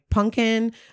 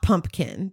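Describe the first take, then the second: First: It is said without a P sound: punkin. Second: It is said with a P sound: pumpkin. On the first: "like pumpkin, not pumpkin. There's no P" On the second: "not pumpkin"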